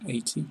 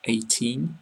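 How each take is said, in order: First: EIGHTY with a short, softer final EE and no N; short final vowel. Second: EIGHTEEN with a long EE and a clear final N; long final vowel. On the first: Teacher applying the same rule, short ending on EIGHTY. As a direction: let EIGHTY end briefly and softly. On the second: Teacher applying the same rule, long EE in EIGHTEEN. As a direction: stretch the end of EIGHTEEN, closing on N. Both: Shown as a demonstration. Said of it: "it's the same for".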